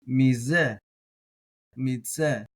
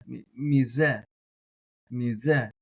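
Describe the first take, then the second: No difference in how they are said.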